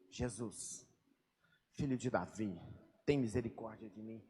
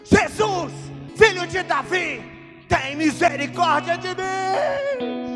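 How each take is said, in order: First: It is said quietly and calmly. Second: It is shouted with a crying voice.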